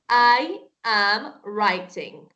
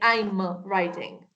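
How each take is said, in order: First: I am is said as two full words. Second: I am is contracted into one syllable. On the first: It suits a formal register. "in a formal register, we use full words" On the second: It suits an informal register. "In terms of informal register, we use abbreviations"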